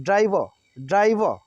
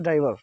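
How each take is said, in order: First: ड्राइवर ending in an open "vaa", no R; American silent R. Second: ड्राइवर in an everyday Hindi tone; Hindi-style pronunciation. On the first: Teacher modelling for students, American silent R. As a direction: drop the final R of ड्राइवर. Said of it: "ऐसा बोलेंगे". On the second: Teacher showing how we usually say it, Hindi-style. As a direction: say ड्राइवर the way Hindi speakers do, ending in -var. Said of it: "इसको हम लोग बोलते हैं". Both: Shown as a demonstration.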